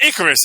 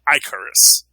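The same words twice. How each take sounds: First: The first syllable sounds like 'ick'. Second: The first syllable sounds like 'ike'. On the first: The speaker calls it wrong. "It's not Icarus" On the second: The speaker calls it right. "it's actually Icarus"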